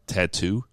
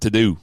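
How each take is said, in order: First: The middle consonant is a crisp t. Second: The middle consonant is a soft d. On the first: "the way she said tattoo" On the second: "T A D O O just so I could remember how she pronounced it"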